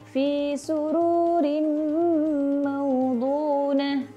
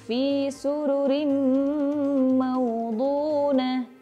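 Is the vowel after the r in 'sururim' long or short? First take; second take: long; short. First: The vowel after the r is drawn out long. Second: The vowel after the r is kept short. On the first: The speaker calls it wrong. "banyak juga di antara kita yang membacanya panjang" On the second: The speaker calls it right. "Di situ dibacanya pendek"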